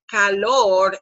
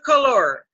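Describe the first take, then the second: First: The first vowel is a clear Spanish 'a'. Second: The first vowel is a reduced schwa. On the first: It means heat. The speaker calls it right. "it's hot in here" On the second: It can sound like the word for color. The speaker calls it wrong. "That's the schwa sound"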